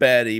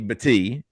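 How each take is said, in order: First: The name is said in ordinary English style. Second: The name is said in a Hawaiian style.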